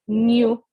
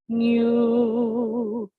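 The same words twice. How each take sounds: First: The word is said short and clipped. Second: The word is held out long.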